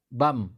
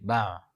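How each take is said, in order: First: The final m is said with closed lips. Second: The final m is said with open lips. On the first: "coba baca uh, bam" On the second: "tidak rapat bibir"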